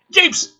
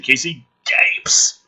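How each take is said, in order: First: Gapes! shouted high and loud; Gapes, barked high in mock outrage; emphatic repeat. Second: Said in the usual way. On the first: Shown as a demonstration. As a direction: punch the word Gapes in disbelief.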